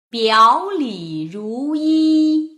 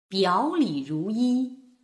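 First: It is read slowly with very clear articulation. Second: It is read faster with expressive feeling.

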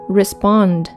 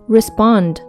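No difference in how they are said.

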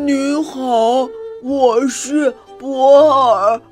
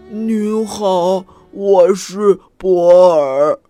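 First: The voice is raised and very loud. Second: The voice is ordinary, at normal loudness.

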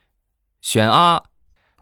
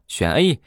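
First: The letter is said as an open 'ah' sound. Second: The letter is said as an 'ay' sound. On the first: The speaker calls it wrong. "你这不是汉语拼音呢" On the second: The speaker calls it right. "以后选说A 啊"

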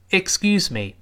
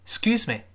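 First: The first syllable is clearly heard. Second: The first syllable is almost dropped. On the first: "但是我们如果不着急慢慢说，依然能够听全这个音节" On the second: "那个ik 说的太快，顺着声音就飘走了"

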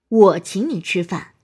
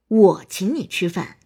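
First: The word 我 carries the stress. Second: The same.

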